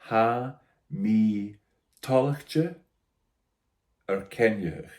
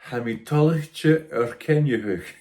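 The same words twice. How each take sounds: First: It is said very slowly. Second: It is said at normal speed.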